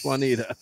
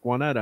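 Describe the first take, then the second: First: Juanita said "wah-NEE-duh"; long EE in Juanita; local pronunciation. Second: Juanetta said "wah-NET-uh"; short E, stressed NET in Juanetta; newcomers' pronunciation. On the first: Correcting a new transplant, local pronunciation. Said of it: "you're a new transplant here". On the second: Mimicking people on that street, newcomers' pronunciation. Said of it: "they're like". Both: Retold or imitated.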